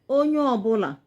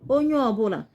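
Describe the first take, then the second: No difference in how they are said.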